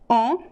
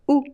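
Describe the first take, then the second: First: The vowel is nasal, sounding through the nose. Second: The vowel sounds like a short u. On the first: "Could be nasal" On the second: "it sounds like U"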